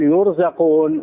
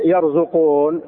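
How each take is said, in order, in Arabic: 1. تبدأ بـ "yur"، وتُنطق yurzaqun. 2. تبدأ بـ "yar"، وتُنطق yarzuqun. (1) "وإنما قال يرزقون، فدل على أنهم فقراء محتاجون" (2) "الله ما قال يرزقون"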